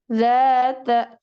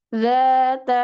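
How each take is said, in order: No difference in how they are said.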